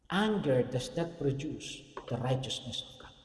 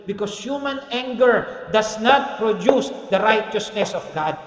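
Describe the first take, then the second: First: Slow, softer reading of the verse; reflective verse. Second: Slow, loud proclaiming of the verse; proclaimed verse. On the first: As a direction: let the verse sink in quietly. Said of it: "verse repeated". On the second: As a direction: declare the scripture slowly and loudly. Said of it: "James one twenty". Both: Shown as a demonstration.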